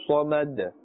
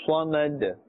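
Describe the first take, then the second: Both takes have the same delivery.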